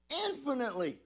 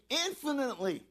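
Both takes have the same delivery.

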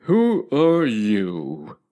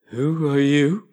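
First: Stretched, slow caterpillar question; very slow drawl. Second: Slow, drowsy caterpillar; languid sleepy voice. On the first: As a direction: draw every word out lazily. Caterpillar repeats his question. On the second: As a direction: lazily blow the question out. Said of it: "in a languid, sleepy voice". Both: A narrator's reading.

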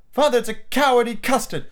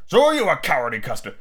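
First: Put-on high-pitched boy teasing father; taunting child. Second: Put-on childish comeback at ordinary pitch; retorting father. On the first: Son calls father a coward, taunting. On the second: Father bickers with his son, petulant retort. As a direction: throw the taunt straight back. Father throws the taunt back.

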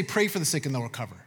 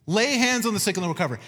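First: Quick, low, soft throwaway of "Pray for the sick"; mock wrong version. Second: "Lay" hit firmly, the rest brisk; stress on lay. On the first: Preacher mocking the wrong verse, fast and low. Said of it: "Notice he didn't say". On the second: Shown as a demonstration. Preacher giving the right verse, "Lay" stressed. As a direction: land on "Lay hands on the sick". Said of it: "he says".

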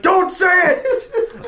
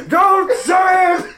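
First: Put-on high, slow, wailing old priest warning; a hammed-up old Irish priest begging. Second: High, slow, shouted priest warning; a hammed-up old Irish priest shouting. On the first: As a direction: plead like a frantic old priest. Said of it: "He's like". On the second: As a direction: yell it like a panicked old priest. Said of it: "this old priest".

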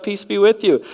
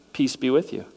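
First: Loud, high, sudden greeting bursting into the room. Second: Calm greeting. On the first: Jesus appearing suddenly before excited disciples, loud high greeting. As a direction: announce peace with a startling burst. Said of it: "he's like". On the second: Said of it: "Jesus goes". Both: Pretend.

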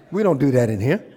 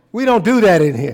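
First: Said in the usual way. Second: Second take punched up louder; driving the line home louder; louder repeat. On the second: Shown as a demonstration.

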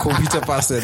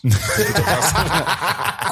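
First: Said in the usual way. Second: Drawn out slowly through a laugh. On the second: Real, not acted. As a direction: savour the joke, slow and giggling.

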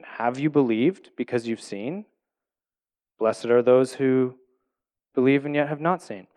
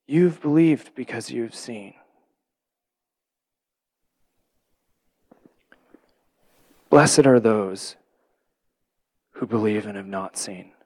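First: Rising question on "Have you believed because you've seen?"; read as a question. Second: Tender statement. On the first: Jesus asking Thomas, read as a question with a rise. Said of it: "they feel like this should be a question". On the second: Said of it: "makes more sense for him to say it as a statement". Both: Shown as a demonstration.

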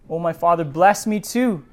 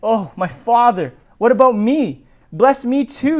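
First: Understated tearful request; mild pleading plea. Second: Begging wail, raised and pained; bitter cry. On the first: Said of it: "Esau broke down and wept". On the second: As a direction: cry out to his father in bitter grief. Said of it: "let out a loud and bitter cry". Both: A narrator's reading.

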